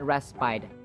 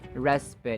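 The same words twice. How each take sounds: First: The final vowel is an 'eye' sound. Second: The final vowel is a relaxed 'uh' sound. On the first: The speaker calls it wrong. "It's not respite. Although it's confusing because the words despite and in spite have the I sound" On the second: The speaker calls it right. "The final vowel sound is uh, as in schwa, the relaxed vowel sound"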